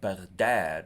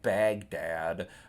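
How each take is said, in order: First: The stress is on the second syllable. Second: The stress is on the first syllable. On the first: The speaker calls it right. "with the accent on the second syllable" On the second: The speaker calls it wrong. "not Baghdad like you'll hear in English"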